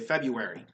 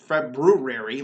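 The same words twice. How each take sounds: First: The word is said in a shortened, casual form. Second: The word is pronounced fully, as spelled. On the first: "We say February" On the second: "We don't say Feb, February like it's spelled"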